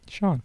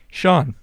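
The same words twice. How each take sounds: First: The name is said at normal, softer volume. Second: The name is said louder.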